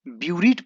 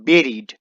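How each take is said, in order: First: The first vowel sounds like 'yoo'. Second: The first vowel sounds like 'eh'. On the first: The speaker calls it wrong. "इसे कोई भी ब्यूरीड पढ़ सकता है" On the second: The speaker calls it right. "हालांकि इसे पढ़ना है बेरीड"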